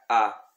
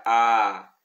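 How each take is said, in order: First: "A" cut short and open; brief Latin short "A"; short vowel a. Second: "A" held long and open; drawn-out Latin long "A"; long vowel a. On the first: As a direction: clip the "A" quickly. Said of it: "quando é breve". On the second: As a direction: stretch the "A" out. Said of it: "quando é longa". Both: Shown as a demonstration.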